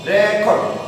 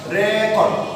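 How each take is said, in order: First: The stress is on the first syllable. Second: The same.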